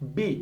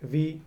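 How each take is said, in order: First: Both lips close together for the consonant. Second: Upper teeth touch the lower lip for the consonant. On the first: The speaker calls it wrong. "দুটো ঠোঁট লাগিয়ে এভাবে বলি বি" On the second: The speaker calls it right. "উপরের দাঁত, এই যে নিচের ঠোঁটে লাগাবো"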